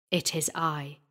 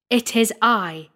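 First: Low, soft and grave; quiet declaration. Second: Raised, forceful declaration; voice of thunder. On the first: Squire reveals himself to the frightened sexton, low and quiet. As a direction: step out of the shadow with a low, quiet answer. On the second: Squire calls after the fleeing sexton, thundering. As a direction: announce yourself with thundering authority. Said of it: "in a voice of thunder". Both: A narrator's reading.

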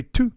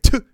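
First: Tu said short and high, the way Gino says it; tu with a raised pitch; Gino's tu. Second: Tu said the way Gino says it; Tu copied from Gino; Gino's tu. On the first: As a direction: copy the odd vowel in tu. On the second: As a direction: repeat his odd tu. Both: Retold or imitated. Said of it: "it really comes out when you say".

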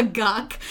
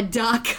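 First: "guck", duck starting with g; velar assimilation. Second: Said in the usual way. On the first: Shown as a demonstration. Showing how kids say duck, "guck". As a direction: back the first sound: "guck". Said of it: "velar assimilation". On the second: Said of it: "They call a duck".

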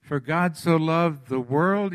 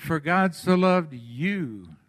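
First: Slow verse, landing on "world"; stress on "world". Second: Slow verse, "you" drawn out; stress on "you". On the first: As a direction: draw out "world" as the word to be replaced. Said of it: "word world out". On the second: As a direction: land long on "you" as the swapped-in word. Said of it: "put in there what? You". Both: Shown as a demonstration.

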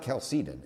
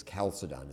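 First: Chalcedon stressed on a long "SEE" in the middle; wrong pronunciation, kal-SEE-den. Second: Chalcedon stressed on the first syllable, with a short weak middle; English pronunciation, KAL-suh-don. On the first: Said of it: "It's Chalcedon is the English pronunciation". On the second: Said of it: "is the English pronunciation". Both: Shown as a demonstration.

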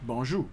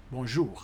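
First: Creole "Bonjour", ending open on "zhoo" without an R; Creole pronunciation. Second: French "Bonjour", with the final R sounded; French pronunciation. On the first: Teacher showing learners good morning in Creole, "Bonjour" with no final R. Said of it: "you say it like this". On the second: Teacher showing learners good morning in French, "Bonjour" with final R sounded. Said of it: "we say it like this". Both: Shown as a demonstration.

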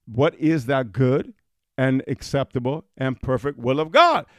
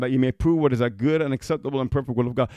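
First: Slow, deliberate scripture reading. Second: Rushed scripture reading; reading the verse quickly. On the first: Preacher rereading the verse for emphasis, slowly. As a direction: read it again slowly, weighing each word. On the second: Preacher reading Romans to his congregation, hurried. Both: Shown as a demonstration. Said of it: "Let me read that again".

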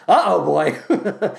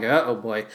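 First: Put-on slow laughing croon of Uh-oh boy; sung, stretch out Uh-oh boy like a lyric; mock crooning the hook; drawn-out sung uh-oh. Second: Said in the usual way. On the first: Shown as a demonstration.

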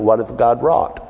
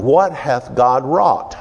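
First: "What hath God wrought?" asked as a question, rising on "wrought"; the preacher shows how it sounds like a question. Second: "what hath God wrought?" as a slow exclamation with WHAT hit hard and a falling end; slow down and land "what" like awe, not a question; the preacher reads it as an awed exclamation. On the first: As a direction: let "wrought" lift like you're asking. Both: Shown as a demonstration. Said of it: "Sounds like a question, doesn't it?".

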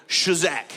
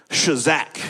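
First: Shazak punched out firmly, sha-ZAK; shazak with more umph. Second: Shazak said as sha-ZAK, stress on the last syllable; Hebrew word shazak. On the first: Pastor leading the crowd, saying shazak with more umph. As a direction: give shazak a little more force. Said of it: "say it again with a little more umph". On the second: Pastor teaching the congregation the word shazak. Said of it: "Everybody say shazak". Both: Shown as a demonstration.

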